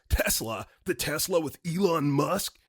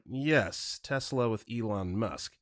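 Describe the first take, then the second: First: Incredulous caller's mock yell, rising at the end; interrupting yell. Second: Said in the usual way. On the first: Angry caller interrupting the operator about Tesla, mock yell. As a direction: imitate an irate caller cutting in with a question. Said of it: "he interrupts me and yells". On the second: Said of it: "And I was like".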